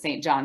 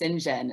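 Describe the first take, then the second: First: The name is said just as it is spelled. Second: The name is said differently from its spelling. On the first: The speaker calls it wrong. "everyone pronounces it Saint John because that's how it's spelled" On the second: The speaker calls it right. "No, it's pronounced St. John"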